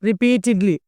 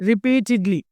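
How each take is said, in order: No difference in how they are said.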